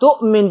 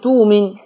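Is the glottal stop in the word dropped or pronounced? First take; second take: pronounced; dropped. First: The glottal stop is fully pronounced. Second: The glottal stop is replaced by a long vowel. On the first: "بتحقيق الهمزة" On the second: "بإبدال الهمزة"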